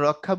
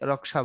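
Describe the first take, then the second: First: The middle consonant is a doubled kh sound. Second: The middle consonant is a k followed by sh. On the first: This is how Bengali speakers say it. "আমরা রক্ষা বলি" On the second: This is how Hindi speakers say it. "তারা কিন্তু এটাকে রক্ষা বলে"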